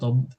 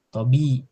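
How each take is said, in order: First: The b ends the syllable with no vowel. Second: The b is followed by an i vowel. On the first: The speaker calls it wrong. "tidak tidak tob" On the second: The speaker calls it right. "ya kalau sebelum huruf sebelumnya itu mesti kasroh. Tobi"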